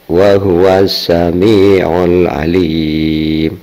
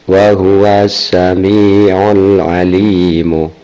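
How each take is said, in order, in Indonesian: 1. Kata terakhir berakhir pada konsonan mati. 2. Kata terakhir berakhir dengan vokal pendek. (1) "kedua dengan wakof" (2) "Pertama tanpa wakof"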